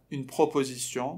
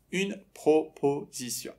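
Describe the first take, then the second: First: Said in the usual way. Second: "proposition" slowly split into syllables. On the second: Shown as a demonstration. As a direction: say "proposition" in separate, slow beats. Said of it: "باید اینا رو سیلاب به سیلاب".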